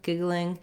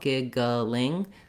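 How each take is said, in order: First: The word is said quickly with short final syllables. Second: The word is said slowly and deliberately. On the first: "you're going to have a very short second and third syllables" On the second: "So I'm just saying it now, giggling, slowly"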